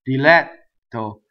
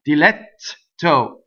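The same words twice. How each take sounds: First: The double T is one held stop. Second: The double T is two separate T sounds. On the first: The speaker calls it right. "I go up to the T, I don't say it, then I say it" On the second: The speaker calls it wrong. "Do I do two T's? ... No"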